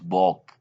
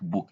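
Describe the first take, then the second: First: The vowel is not said as a U sound. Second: The vowel is said as a U sound. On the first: The speaker calls it wrong. "not book" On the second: The speaker calls it right. "we read it like book"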